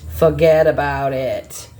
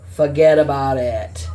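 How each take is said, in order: First: Put-on Boston accent. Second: Put-on a breathy whispered Boston-accented "Forget about it". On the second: Reader tries the phrase again in a whispered Boston accent. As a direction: whisper it like a Bostonian letting it slide. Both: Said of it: "Sounding like they're, like, from Boston".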